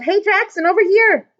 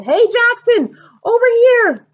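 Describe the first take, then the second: First: High, loud call across rows; loud high yell. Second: High, loud call from far away; loud high long-distance call. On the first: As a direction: call the vendor over. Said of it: "a lady yelled". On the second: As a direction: call across the stands. Before yelling. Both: A narrator's reading.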